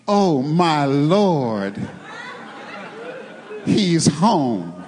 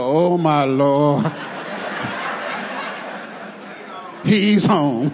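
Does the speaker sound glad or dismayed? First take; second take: glad; dismayed. First: It sounds glad and respectful. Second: It sounds dismayed and exasperated. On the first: The husband is welcomed with respect. The speaker calls it right. "you say" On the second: The husband's arrival is unwelcome. The speaker calls it wrong. "the wrong way... different inflection"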